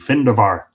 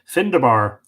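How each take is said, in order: First: The middle consonant is a V sound. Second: The middle consonant is a B sound. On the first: The speaker calls it right. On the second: The speaker calls it wrong.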